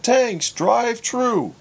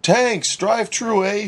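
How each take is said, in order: First: Put-on "Tanks, drive-thru" spelled out slowly in a Newfie accent; patient Newfie accent, spoken at half speed; slow Newfie repeat. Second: Quick, chirpy Newfoundland greeting with "Tanks" for thanks; a bright, high Newfie "Tanks, drive-thru, eh?"; cheery Newfie drive-thru greeting; Newfie accent. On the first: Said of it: "repeated Herbie". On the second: Acted. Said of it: "a thick Newfie accent".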